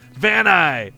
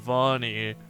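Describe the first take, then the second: First: The name ends with a hard 'eye' sound. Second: The name ends with a soft 'ee' sound. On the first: The speaker calls it wrong. "we pronounced it incorrectly... It's got harder sounds" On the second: The speaker calls it right. "but it sounds so much cooler than Vani"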